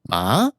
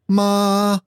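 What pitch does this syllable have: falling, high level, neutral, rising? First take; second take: rising; high level. First: The pitch rises through the syllable. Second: The pitch stays high and level. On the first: "then there's a rising tone" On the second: "There's a high, steady tone"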